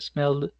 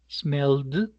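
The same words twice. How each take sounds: First: The final d sound is light and subtle. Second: The final d sound is strongly exaggerated. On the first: "Uno normalmente, ya cuando le coge el tino, dice ... es mucho más sutil" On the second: "lo estoy exagerando precisamente para que usted lo relacione"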